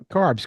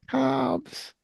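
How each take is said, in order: First: It is said in the speaker's own accent. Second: It is said in an imitated foreign accent. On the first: "No, carbs" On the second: "because she has that accent. She says, you eat cobs"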